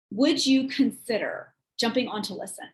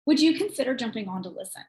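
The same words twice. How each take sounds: First: "Would you consider" spaced out, pause before "jumping"; deliberate emphasis. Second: Said in the usual way. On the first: Shown as a demonstration. Coach repeating the text's wording for listeners, deliberate and spaced out. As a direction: stress "Would", then pause after "consider".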